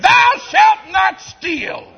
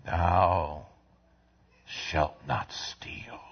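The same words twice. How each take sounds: First: High, loud, slow proclamation; shouted commandment. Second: Soft, slow whisper; whispered commandment. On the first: Preacher proclaiming the commandment to the church, loud and slow. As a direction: thunder the commandment out. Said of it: "same words whispered later". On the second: Preacher hushing the commandment to the congregation, slow whisper. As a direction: breathe the commandment softly. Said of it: "same words shouted earlier". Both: Real, not acted.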